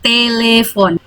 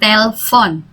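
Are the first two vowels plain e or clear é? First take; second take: clear é; plain e. First: The first two vowels are clear é sounds. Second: The first two vowels are plain e sounds. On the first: The speaker calls it right. "karena ini aksannya dua di E ini, jadi bacanya tele" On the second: The speaker calls it wrong. "bukan telepon"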